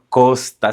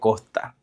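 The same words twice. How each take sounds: First: The s sound is clearly pronounced. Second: The s sound is dropped or softened. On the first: "no decimos costa" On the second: "no pronunciamos casi la S"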